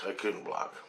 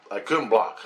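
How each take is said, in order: First: Much softer, falling away; soft repeated admission; defeated echo. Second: Said in the usual way. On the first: Real, not acted. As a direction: let it fade out, beaten. Repeats the line, second time fading.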